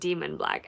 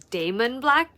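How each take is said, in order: First: The first name sounds like 'demon'. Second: The first name sounds like 'Damon'. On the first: This is how the audiobook narrator says it. The speaker calls it wrong. "the narrator is pronouncing it" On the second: This is how the speaker read it on the page. The speaker calls it right. "I've always pronounced Dawson's brother's name as"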